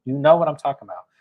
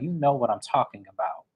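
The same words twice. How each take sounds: First: Louder and fast, pressing the point; insistent repeat. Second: Said in the usual way. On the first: Retold or imitated. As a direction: push it harder the second time. Repeated quote, pushed harder.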